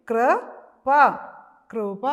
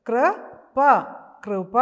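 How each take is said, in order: Both takes have the same delivery.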